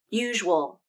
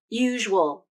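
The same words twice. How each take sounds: First: The word is said with two syllables. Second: The same.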